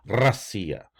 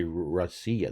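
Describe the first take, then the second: First: "Russia" as rrra-SEE-ya, R trilled; rolled R. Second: "Russia" as ruh-SEE-ya with an English R; wrong untrilled R. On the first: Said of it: "they say Russia". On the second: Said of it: "they don't say Russia". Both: Shown as a demonstration.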